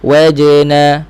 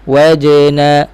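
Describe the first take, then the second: No difference in how they are said.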